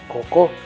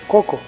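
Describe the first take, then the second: First: The stress is on the second syllable. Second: The stress is on the first syllable. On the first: The speaker calls it wrong. "tampoco decimos" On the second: The speaker calls it right.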